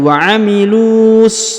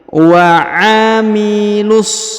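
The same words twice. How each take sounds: First: The lu vowel is lengthened before the s. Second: The lu vowel is short, running into the s. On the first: The speaker calls it wrong. "bukan lagi wa amilus ya, tidak seperti itu" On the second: The speaker calls it right. "huruf lu langsung sambung ke huruf so"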